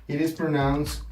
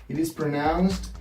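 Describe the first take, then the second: No difference in how they are said.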